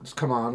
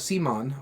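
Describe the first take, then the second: First: It is said like the phrase come on. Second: It is said like the name Simon. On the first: This is how the company itself says it. "I've heard them pronounce it as come on" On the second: This is the common way people say it. "Everybody still calls them Simon"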